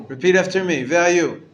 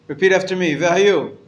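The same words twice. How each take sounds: No difference in how they are said.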